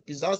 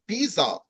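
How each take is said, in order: First: The word is said with an English pronunciation. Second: The word is said with a French pronunciation. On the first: "Yet now the English people uh, uh, describe that as a bizarre situation" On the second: "normally the French pronounce it differently. They say a, a situation is actually bizarre"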